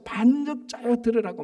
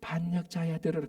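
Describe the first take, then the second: First: It is said loudly, voice raised. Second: It is said softly and gently.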